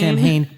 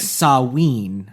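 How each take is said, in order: First: The name is read out just as spelled. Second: The name is said unlike its spelling. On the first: The speaker calls it wrong. "it's spelled S A M H A I N" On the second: The speaker calls it right. "but it's pronounced Samhain"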